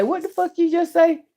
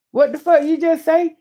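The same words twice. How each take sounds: First: High, sharp what-did-you-say; blunt mock retort. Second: High, sharp what-did-you-say repeat; blunt mock retort. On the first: Showing how she answers her cousin's husband, blunt and incredulous. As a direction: snap it back in disbelief. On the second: Repeating how to answer her cousin's husband, blunt. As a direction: fire it back, incredulous. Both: Shown as a demonstration. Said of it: "And say it just like that".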